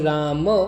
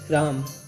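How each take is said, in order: First: A short vowel is heard after the final m. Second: The word ends on the m, with no vowel. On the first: This follows the word's original source language. "अगर संस्कृत की माने जहाँ से शब्द की origin हुई है तो राम करेक्ट प्रोनाउंसिएशन है" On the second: This follows the later languages that borrowed it. "इस आखिरी अ को हटा दिया जाता है"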